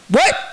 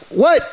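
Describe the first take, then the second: First: High, startled what; pitched-up disbelieving what; shocked what. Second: High, baffled what; pitched-up bewildered what; confused what. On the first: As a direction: yelp it in disbelief. Foreigner shocked by ten grand. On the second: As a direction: ask it like you can't believe it. Foreigner confused again. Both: Retold or imitated.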